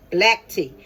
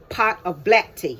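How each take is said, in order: First: Black punched, falling tune; stress on black. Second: Said in the usual way. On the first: Real, not acted. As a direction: correct yourself, hitting Black. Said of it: "I hope I didn't say green tea".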